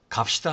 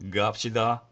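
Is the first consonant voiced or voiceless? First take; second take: voiceless; voiced. First: The first consonant is voiceless. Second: The first consonant is voiced. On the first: "그 첫 번째 소리는 무성자음입니다" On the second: "유성자음으로 발음해서"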